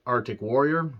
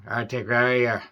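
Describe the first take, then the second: First: Said in the usual way. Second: Arctic Warrior with a light Irish lilt, dropped r in Arctic; Irish accent. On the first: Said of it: "accent was coming out when he was trying to say". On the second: Retold or imitated. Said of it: "Gabriel Byrne's accent was coming out".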